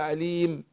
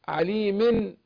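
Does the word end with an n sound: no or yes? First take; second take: no; yes. First: The word ends on m with no n. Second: The word ends with a nasal n sound. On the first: The reciter stops on this word. "لو وقفنا عليه" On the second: The reciter carries on to the next word. "في الوصل يعني"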